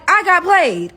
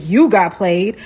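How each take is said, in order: First: "I" pitched high in a complaint; stress on I. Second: "You" stressed, rising into a disbelieving question. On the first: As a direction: hit "I" high, then fall away on "got played". Her claim, which he echoes. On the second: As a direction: throw it back with weight on "You", lower start, rising end. He throws her claim back. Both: Retold or imitated.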